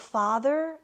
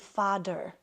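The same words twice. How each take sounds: First: The middle consonant is a soft th sound. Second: The middle consonant is a d sound. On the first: "like the word father" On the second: "I would say father. ... my T H's sounded like D's"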